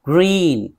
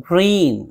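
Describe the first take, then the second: Both takes have the same delivery.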